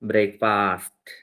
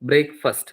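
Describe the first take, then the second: First: It is said with local Malayali pronunciation. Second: It is said with standard English pronunciation. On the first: The speaker calls it wrong. "നമ്മളാണെങ്കിലോ" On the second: The speaker calls it right. "ബ്രേക്ക്ഫാസ്റ്റ് എന്നാണ് അതിന്റെ pronunciation"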